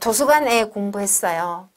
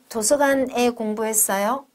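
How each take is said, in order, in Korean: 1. 평서문으로 말하는 거예요. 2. 되묻는 듯한 억양으로 말하는 거예요. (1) "이건 한국어로는 문법적인 오류지요" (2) "하고 다시 묻는 거"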